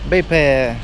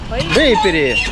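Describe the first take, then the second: First: The name ends with a 'pay' sound. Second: The name ends with a 'peri' sound. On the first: This is how the locals say it. "Но они как-то говорят так" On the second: This is how the travelers call it. "либо как мы его еще называем?"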